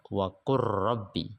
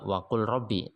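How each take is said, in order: First: The L sound merges completely into the R. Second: The L sound is pronounced clearly before the R. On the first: The speaker calls it right. "jadi lamnya masuk ke ro, tapi dibaca wa qur rabbi" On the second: The speaker calls it wrong. "tidak dibaca wa qul rabbi"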